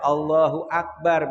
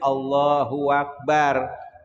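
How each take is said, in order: First: No 'w' sound comes before 'akbar'. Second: A 'w' sound links 'Allahu' to 'akbar'. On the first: The speaker calls it right. "lidah saya nggak bisa baca" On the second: The speaker calls it wrong.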